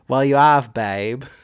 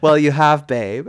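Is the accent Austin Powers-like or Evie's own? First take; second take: Austin Powers; Evie's. First: It is said in an Austin Powers accent. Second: It is said imitating Evie's own accent.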